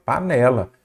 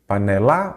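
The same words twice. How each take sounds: First: Said in the usual way. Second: "Panela" with the stress moved to the last syllable, pa-ne-LA; wrong final stress. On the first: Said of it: "é a penúltima". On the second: Shown as a demonstration. Teacher testing where the tonic syllable falls, "Panela" stressed on final LA. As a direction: punch the final LA of "Panela", rising. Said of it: "Qual que é a sílaba tônica".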